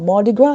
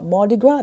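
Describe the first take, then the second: First: It is pronounced the English way. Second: The same.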